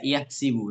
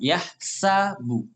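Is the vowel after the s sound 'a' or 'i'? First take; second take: i; a. First: The vowel after the s is an i. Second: The vowel after the s is an a. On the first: This is an alternative reading from another dialect. "ini menggunakan kasroh yahsibu" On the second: This is the reading chosen by most reciters. "huruf sinnya difathahkan"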